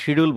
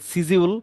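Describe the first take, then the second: First: The word begins with an sh sound. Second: The word begins with a plain s sound. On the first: This is how people here commonly say it. The speaker calls it wrong. "আমরা শিডিউল বলি" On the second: This is the proper pronunciation. The speaker calls it right. "আপনারা বলবেন সিজিউল"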